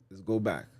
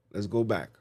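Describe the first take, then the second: No difference in how they are said.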